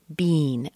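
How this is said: The vowel is a long E sound. "especially in Canada, you might hear bean, a long E"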